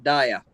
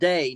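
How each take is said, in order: First: The word sounds like 'dia', two syllables. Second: The word sounds like 'day', one syllable. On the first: The speaker calls it wrong. "not dia" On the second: The speaker calls it right. "that's pronounced day"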